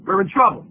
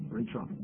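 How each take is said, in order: First: Said in the usual way. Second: Much softer, almost under the breath; quiet ominous echo; hushed repeat. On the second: Real, not acted. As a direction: drop the voice to a grim hush. Repeated warning, second take hushed.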